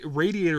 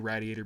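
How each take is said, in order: First: The first syllable sounds like 'radiating'. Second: The first syllable sounds unlike 'radiating'. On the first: This is the standard way, tied to radiating heat. "radiator would be right because it's radiating heat" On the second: This is a small-town habit picked up growing up. "I say radiator because I grew up in a fucking hick town"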